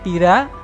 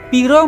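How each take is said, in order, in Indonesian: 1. Vokal akhir diucapkan sebagai 'a'. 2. Vokal akhir diucapkan sebagai 'o'. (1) "bahasa Panginyongan menggunakan A" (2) "umumnya bahasa Jawa sekarang memakai bunyi vokal huruf O"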